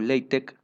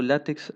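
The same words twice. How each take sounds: First: The final x is said like Greek chi. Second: The final x is said like ks. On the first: "la pronunciación oficial es LaTeX o LaTeX, porque esta X en realidad viene de chi" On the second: "yo estoy pronunciando LaTeX"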